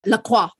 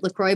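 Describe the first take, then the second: First: "La Croix" said as la-KWAH; French pronunciation. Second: "LaCroix" said as la-KROY; Anglicized pronunciation. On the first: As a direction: say "La Croix" French-style, ending in "kwa". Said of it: "probably is correct". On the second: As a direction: say "LaCroix" the American way, ending like "croy". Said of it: "I've heard people pronounce it". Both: Shown as a demonstration.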